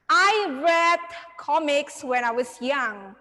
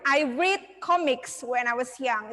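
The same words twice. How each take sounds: First: Read has the vowel of the past-tense form. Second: Read has the vowel of the present-tense form. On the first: The speaker calls it right. "jadi kalian bacanya read" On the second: The speaker calls it wrong. "Jadi bukan ... itu salah"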